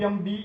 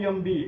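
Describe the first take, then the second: Both takes have the same delivery.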